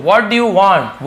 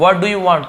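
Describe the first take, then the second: First: Every word drawn out slowly; slow, clear teacher demo; slow model reading. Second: Said in the usual way. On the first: Shown as a demonstration. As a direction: read it slowly for the class to copy. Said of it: "teacher models sentence slowly". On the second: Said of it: "teacher repeats at normal pace".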